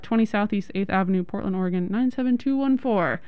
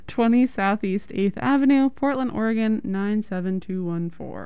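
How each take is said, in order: First: The address is read quickly. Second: The address is read slowly. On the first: The speaker calls it wrong. "Just so quickly" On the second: The speaker calls it right. "Say that again slower"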